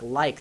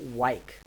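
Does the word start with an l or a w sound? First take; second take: l; w. First: The word starts with an l sound. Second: The word starts with a w sound. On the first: "the L in like" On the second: "and then you glide it"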